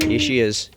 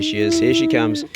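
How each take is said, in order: First: Said in the usual way. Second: Much higher, squeaky voice for the dog; telling the dog Poe is coming, in a squeaky high voice; squeaky dog talk. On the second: Real, not acted. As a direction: sing it up high to excite the dog.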